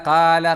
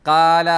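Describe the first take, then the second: The two takes are said the same way.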